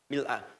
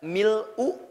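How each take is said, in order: First: The word ends with an 'a' vowel. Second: The word ends with an 'u' vowel. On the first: "bisa dibaca mil'a" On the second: "Bisa dibaca mil'u"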